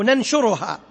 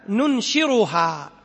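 First: ننشرها said as نَنشُرها, na then shu; second variant. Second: ننشرها said very slowly with نُنشِرها vowels; variant reading. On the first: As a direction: give ننشرها with the other vowels. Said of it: "أو". (نَنشُرها بفتح النون وضم الشين) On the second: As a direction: spell out ننشرها slowly, nun-u shin-i. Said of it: "قرأها النبي". (نُنشِرها ببطء شديد) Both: Shown as a demonstration.

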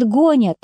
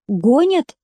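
First: Said in the usual way. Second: "Гонят?" higher, rising at the end; questioning echo. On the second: A narrator's reading. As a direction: ask "Гонят?" back with a lifted tune. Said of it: "спросил Костик".

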